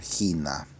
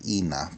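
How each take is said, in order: First: The word starts with a breathy h sound. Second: The word starts directly with a vowel. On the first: "pero en más clásica va a ser gina" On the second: "en pronunciación moderna no, no respetan ese, ese, ese marca"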